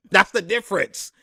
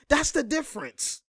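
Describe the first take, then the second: First: Said in the usual way. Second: "That's the difference." lifted high and dropped soft, teasing; higher, softer repeat. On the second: Shown as a demonstration. Commentator teases critics with a high, soft repeat. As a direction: echo it high and soft, taunting.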